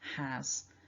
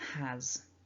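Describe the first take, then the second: First: It ends with a voiced Z sound. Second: The same.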